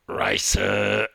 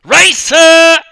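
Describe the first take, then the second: First: A short, gruff, louder grunt of one word. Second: Racer screamed much higher and louder, stretched out; screaming. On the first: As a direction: grunt it like a terse coach. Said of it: "grunted Big Bill". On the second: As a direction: yell Racer across the whole pool. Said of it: "I screamed even louder". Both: Acted.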